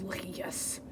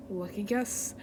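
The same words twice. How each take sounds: First: Very soft, low whispered retake; whispered villain. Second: Low, soft villain voice; villain take. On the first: Villain conceding a point, low hushed whisper. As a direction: drop it to a sinister whisper. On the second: Villain conceding a point, low and soft. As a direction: say it low and quietly. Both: Acted.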